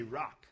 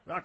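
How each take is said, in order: First: Said in the usual way. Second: "rock" drawn out very high and loud; exaggerated Hebrew word. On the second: Shown as a demonstration. Teacher getting listeners to say the word, "rock" stretched high and loud. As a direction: belt "rock" as one long, high, loud cry.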